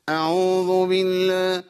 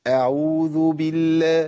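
First: Slow أعوذ بالله chanted through the nose; faulty, humming nasal أعوذ بالله; added ghunna. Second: Slow أعوذ بالله chanted with purely oral vowels; clear-mouthed chant of أعوذ بالله; clean, no ghunna. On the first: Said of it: "زاد صوت على صوت الحرف". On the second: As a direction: intone أعوذ بالله free of nasal hum. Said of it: "في فرق، فرق كبير جدًا". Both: Shown as a demonstration.

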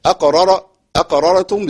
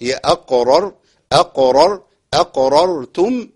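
First: أقررتم with a thin, unclear r; wrong r. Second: أقررتم with both r sounds thick and full; heavy r. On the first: Teacher demos the wrong أقررتم. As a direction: blur the r of أقررتم. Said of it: "لا ما تنفعش". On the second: Teacher models the correct أقررتم. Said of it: "الراءين الاتنين مفخمين". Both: Shown as a demonstration.

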